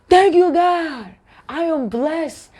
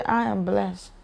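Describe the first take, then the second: First: High, drawn-out joyful praise; heartfelt gratitude. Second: Soft, indifferent throwaway; just saying it. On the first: Believer thanking God for blessings, heartfelt and exultant. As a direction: sing out your thanks, stretched and high. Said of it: "you feel it within your heart". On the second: Believer saying a blessing only to say it, unfelt. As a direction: drop it quietly, without feeling. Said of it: "you just wanna say it". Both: Shown as a demonstration.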